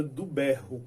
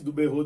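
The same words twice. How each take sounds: First: "berro" stressed on the first syllable, open e; normal pronunciation. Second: "berrô" with a closed o and stress on the last syllable; forced rhyme pronunciation. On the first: Teacher giving the real word "berro", stress on the first syllable. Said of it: "disse que era do berro". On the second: Teacher showing the song's forced "berrô", closed final o. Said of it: "a pessoa deu uma forçadinha aí e disse do berrô". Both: Shown as a demonstration.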